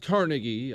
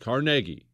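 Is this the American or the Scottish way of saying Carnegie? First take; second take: American; Scottish. First: It is said the usual American way. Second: It is said the Scottish way. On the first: The speaker calls it wrong. "It's not Carnegie" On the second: The speaker calls it right. "He's Scottish. It's Carnegie. That's how you say it"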